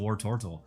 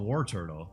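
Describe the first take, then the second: First: The second part sounds like tort, as tortle. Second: The second part sounds like the word turtle. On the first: The speaker calls it right. "he's a tort. That's how I see it" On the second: The speaker calls it wrong. "there's no U, so to me he's not he's not a War Turtle"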